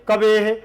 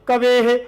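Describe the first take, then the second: The two takes are said the same way.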